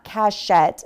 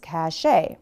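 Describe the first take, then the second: First: The word ends with a T sound. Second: The word ends with a vowel sound. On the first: The speaker calls it wrong. "It's not cachette" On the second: The speaker calls it right. "it's cachet"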